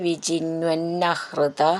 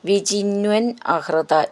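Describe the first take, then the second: First: The two words are merged into one. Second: The two words are said separately.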